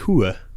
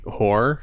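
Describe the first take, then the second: First: The word is said in a Sopranos-style accent. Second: The word is said in a plain accent. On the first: "They say like" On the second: "they don't say like"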